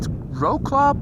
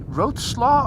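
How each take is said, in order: First: The name is read the way it is spelled. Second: The name is pronounced the Polish way. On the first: The speaker calls it wrong. "you write Wrocław" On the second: The speaker calls it right. "you should say Wrocław or something like that"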